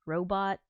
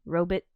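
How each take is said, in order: First: "robot" as ROH-bot with a full ending; modern pronunciation. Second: "robot" as ROH-bit with a weak ending; old-fashioned pronunciation. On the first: Streamer listing changed pronunciations, modern "robot" as ROH-bot. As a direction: open up the second vowel of "robot". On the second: Streamer listing changed pronunciations, old-style "robot" as ROH-bit. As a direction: shrink the second syllable of "robot" to "bit". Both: Shown as a demonstration. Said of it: "pronunciations change".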